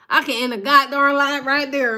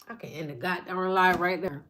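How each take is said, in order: First: Loud, fired-up repeat; loud emphatic repeat. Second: Low, softer and held back; quiet, before the build; quiet first take. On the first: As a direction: hit it hard the second time to drive it home. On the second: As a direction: say it low under the breath, like a thought. Repeats the line for emphasis. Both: Real, not acted.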